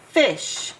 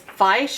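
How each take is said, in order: First: The vowel is short, as in the real word. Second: The vowel is long, like its letter name. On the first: The speaker calls it right. "Now that it's closed in, it makes its I sound" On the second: The speaker calls it wrong. "it would be an open vowel, which would make it say I"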